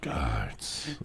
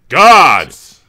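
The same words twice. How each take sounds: First: The word is whispered softly. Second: The word is shouted loudly. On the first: "say it like you're whispering in the ear of a lover" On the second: "that was still too loud"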